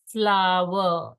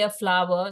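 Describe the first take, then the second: First: "Flower" stretched out slowly; very slow model. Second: Said in the usual way. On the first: Shown as a demonstration. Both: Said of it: "saying it in a very slow manner".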